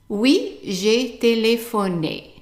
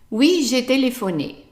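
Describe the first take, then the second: First: The phrase is spoken slowly and carefully. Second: The phrase is spoken at normal speed.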